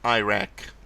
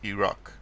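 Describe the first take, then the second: First: The first vowel sounds like 'eye'. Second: The first vowel sounds like 'it'. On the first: The speaker calls it wrong. "not Iraq" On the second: The speaker calls it right. "it's Iraq"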